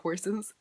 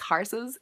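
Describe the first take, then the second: First: It is said in a neutral, non-country accent. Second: It is said with a rural Irish country twang. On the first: "instead of horses" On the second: "he does have that like country twang. He says horses"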